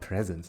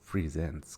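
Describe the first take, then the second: First: The stress is on the first syllable. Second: The stress is on the second syllable. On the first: It means gifts. The speaker calls it wrong. "It's not presents" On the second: It means showing things. The speaker calls it right. "it's presents because they are presenting stuff"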